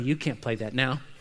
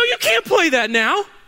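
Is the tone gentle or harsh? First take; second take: gentle; harsh. First: It is said in a soft, sweet tone. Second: It is said in a sharp, scolding tone. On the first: The speaker calls it right. "Oh, dear honey" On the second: The speaker calls it wrong. "You don't say it like that"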